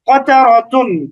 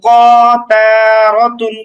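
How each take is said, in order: First: The syllables are said quickly without lengthening. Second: The syllables are drawn out and separated. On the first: The speaker calls it right. "সবগুলো একেবারে তাড়াতাড়ি উচ্চারণ" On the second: The speaker calls it wrong. "এটাকে এভাবে উচ্চারণ করছি না যে ক তা রতুন এরকম না"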